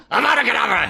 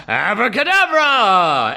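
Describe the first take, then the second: First: "Abracadabra" rattled off in one quick high burst; high, rapid-fire "Abracadabra"; real fast. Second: ABRACADABRA stretched slowly, rising high then falling; big slow magician's "Abracadabra"; drawn-out incantation. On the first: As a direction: gabble the word "Abracadabra" at speed. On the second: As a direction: intone "Abracadabra" long and grandly. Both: Acted. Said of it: "he says real fast".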